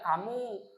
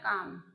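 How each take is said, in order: First: The word ends with a u vowel. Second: The word ends on the m consonant. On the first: The speaker calls it wrong. "Tidak boleh sampean membaca kamu" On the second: The speaker calls it right. "Selamanya juga dibacanya kam"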